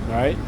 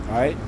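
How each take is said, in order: The two takes are said the same way.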